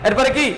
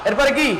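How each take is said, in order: The two takes are said the same way.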